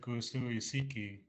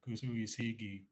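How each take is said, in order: First: The consonant is a hard K sound. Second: The consonant is softened to a G sound. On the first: The speaker calls it wrong. "You wouldn't say kusui siki. It sounds funny and clinking" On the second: The speaker calls it right. "So you soften the K to a G sound"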